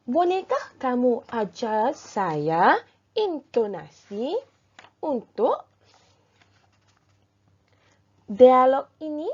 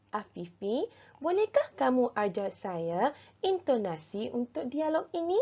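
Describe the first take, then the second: First: Slow, loud, each word stretched out; loud careful model reading. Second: Said in the usual way. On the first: Shown as a demonstration. Teacher modelling the dialogue for pupils, slow and loud. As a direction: read it out slowly and loudly like a model for the class. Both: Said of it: "baca petikan dan dialog dengan betul dan jelas".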